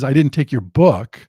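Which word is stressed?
book. The stress falls on the word book. Something else was taken. "I took your computer, I took your wallet, I took something else"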